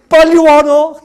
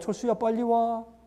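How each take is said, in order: First: It is shouted loudly and urgently. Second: It is said calmly and mildly.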